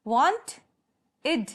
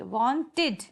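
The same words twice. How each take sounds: First: वांट rising, a pause, then इड; syllable split. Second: वांटेड sounded as waan-tid, both beats clear; two-syllable demo. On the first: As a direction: break it apart as वांट and इड. (वांट और इड को रुककर अलग बोलें) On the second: (वांटेड को वान-टिड, दो हिस्सों में बोलें) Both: Shown as a demonstration. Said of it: "टू syllables कैसे बने हैं".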